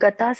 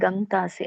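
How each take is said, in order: First: There is no nasal sound before the t. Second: A nasal sound comes before the t. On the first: The speaker calls it wrong. "ಅದು ಗತಾಸಿ ಅಲ್ಲ ಮಾತಾಜಿ" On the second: The speaker calls it right. "ಅಲ್ಲಿ ಗಂತಾಸಿ ಅನುನಾಸಿಕ ಇದೆ"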